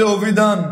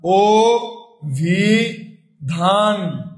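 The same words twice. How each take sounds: First: Said in the usual way. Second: অভিধান drawn out as "o-bhi-dhaan"; syllable-by-syllable pronunciation. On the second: Shown as a demonstration. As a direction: say অভিধান very slowly, pausing between o, bhi and dhaan. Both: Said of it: "আবার যদি বলি".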